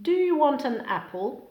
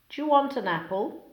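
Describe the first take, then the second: First: Each word keeps its own separate sounds. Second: Sounds between words blend and change together.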